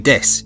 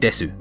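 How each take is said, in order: First: The final vowel is silent, ending on s. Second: The final vowel is fully pronounced as su. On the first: The speaker calls it right. "you say des" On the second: The speaker calls it wrong. "you don't say desu"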